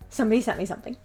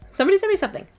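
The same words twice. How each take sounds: First: Said in the usual way. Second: High, louder giddy squeal; "Somebody sent me something." pitched high and loud with delight; excited. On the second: Retold or imitated. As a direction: squeal it like a kid with a package. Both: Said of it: "It's like".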